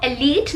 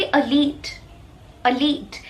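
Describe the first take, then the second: First: एलीट starting with a clear e; wrong pronunciation. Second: अलीट starting with a weak uh; correct pronunciation. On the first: Teacher shows what not to say, एलीट as e-leet. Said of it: "आप इसको एलीट नहीं बोलेंगे". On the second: Teacher corrects learners, अलीट as uh-leet. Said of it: "इसको आप कहेंगे". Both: Shown as a demonstration.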